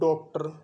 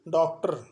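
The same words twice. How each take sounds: First: The first vowel sounds like a rounded 'o'. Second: The first vowel lies between 'aa' and 'o'. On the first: The speaker calls it wrong. "और एक लोग बोलते हैं इसको डॉक्टर" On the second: The speaker calls it right. "न तो आ बोला जाता है और न ओ बोला जाता है"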